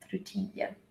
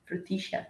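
First: It is said in a general South American accent. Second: It is said in an Argentine accent.

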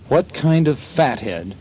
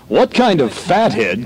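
First: It is said in the speaker's ordinary voice. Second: It is said in an imitated announcer voice.

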